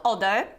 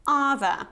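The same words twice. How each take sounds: First: "other" said wrongly with an "o" vowel and a D, "O-der"; mispronunciation. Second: "other" with an "ah" sound as in cut, "UH-thuh"; proper pronunciation. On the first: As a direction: show the mistaken "other" as "odder". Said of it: "it's not other". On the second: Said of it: "So you have this ah sound". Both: Shown as a demonstration.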